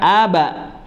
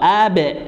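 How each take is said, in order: First: The vowel is a fully open a. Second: The vowel sounds like an e. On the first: "bukan aba" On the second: "atau abe, bukan juga"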